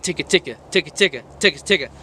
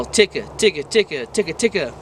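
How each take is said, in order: First: Quick rattled ticka ticka, x1.6; fast ticka rhythm. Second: Unhurried ticka ticka beats; slower ticka rhythm. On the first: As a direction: fire off the ticka beats fast. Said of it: "like this". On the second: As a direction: ease the ticka down, not as fast. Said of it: "not as fast". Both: Shown as a demonstration.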